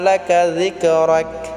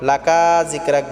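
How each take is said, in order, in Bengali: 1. 'ka' এর স্বরধ্বনিটি হ্রস্ব ও দ্রুত। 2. 'ka' এর স্বরধ্বনিটি টেনে দীর্ঘ করা হয়।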